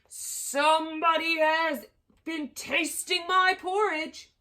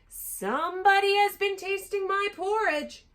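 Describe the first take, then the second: First: It is said in a great big voice. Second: It is said in a middle-sized voice.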